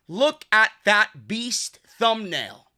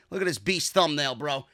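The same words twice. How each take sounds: First: Slow weight on every word of "Look at that beast thumbnail"; "Look at that beast thumbnail", drawn out and punched; emphatic repeat. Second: Said in the usual way. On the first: Real, not acted. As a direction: stretch out "beast thumbnail" to show it off.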